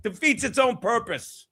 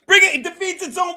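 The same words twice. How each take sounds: First: Said in the usual way. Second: Loud, fast outburst; fired-up shout. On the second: Real, not acted. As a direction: fire it off all worked up. Heated rant, repeated later.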